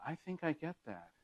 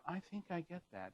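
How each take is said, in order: First: Vague tone. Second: Breathless. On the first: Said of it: "in kind of a vague tone". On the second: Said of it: "raise the voice ... sense of breathlessness". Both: Shown as a demonstration.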